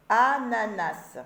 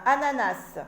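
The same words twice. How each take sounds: First: ANANAS drawn out slowly, syllables set apart. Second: Said in the usual way. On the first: Shown as a demonstration. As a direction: stretch "ananas" slowly for learners to hear each syllable. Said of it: "je commence par la première syllabe". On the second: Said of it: "Et ici, ananas".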